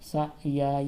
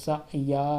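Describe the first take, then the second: Both takes have the same delivery.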